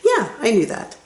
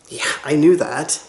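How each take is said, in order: First: The voice is raised and sounds friendly. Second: The voice is flat and sounds dismissive. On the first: The speaker already knew but is friendly about it. The speaker calls it right. "It sounds polite when you raise your voice" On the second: The listener should have known this already. The speaker calls it wrong. "it makes me feel bad"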